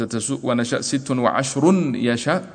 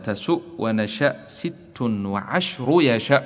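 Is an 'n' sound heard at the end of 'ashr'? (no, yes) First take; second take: yes; no. First: An n sound is added after 'ashr'. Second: No n sound follows 'ashr'. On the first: The numbers seem to count the words before them. The speaker calls it wrong. "لو قلت" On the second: The number ten belongs to the word yasha. The speaker calls it right. "فالنطق يكون هكذا"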